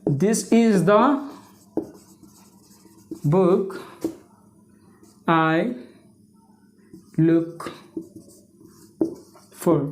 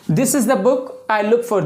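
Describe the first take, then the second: First: Very slow, word by word with long gaps; halting, low dictation with long pauses; dictating while writing. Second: Said in the usual way. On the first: Real, not acted. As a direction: draw it out as you write each word.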